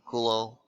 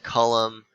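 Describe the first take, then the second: First: The name is said with French pronunciation. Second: The name is said without French pronunciation. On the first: The speaker calls it right. "You would pronounce the name Coulomb. ... I say it like that because he was French" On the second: The speaker calls it wrong. "So don't say Coulomb or you know anything weird like that"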